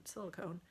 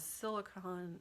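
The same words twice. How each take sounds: First: "silicone" ending like "cone"; silicone with long O. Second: "silicone" ending short, like "con"; silicone as silicon. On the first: Host correcting herself on the word, silicone with a long O. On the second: Host reading a viewer's question, silicone pronounced like silicon. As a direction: say "silicone" as "SIL-ih-kon". Self-corrects the word's vowel. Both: Real, not acted.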